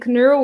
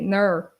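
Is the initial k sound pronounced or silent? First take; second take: pronounced; silent. First: The word starts with a strong k sound. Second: The word starts without any k sound. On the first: "I say knurl with the K that is very strong" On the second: "In Portuguese, you we usually avoid that"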